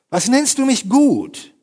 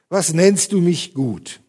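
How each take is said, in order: First: The question sounds slightly annoyed and indignant. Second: The question sounds humble and loving. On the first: The speaker is somewhat offended by the address. "Wie so leicht angefressen, wie leicht empört" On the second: The question is asked with humility and warmth. "Sehr demütig, sehr liebevoll gefragt oder gelesen von mir"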